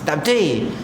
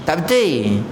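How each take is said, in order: The two takes are said the same way.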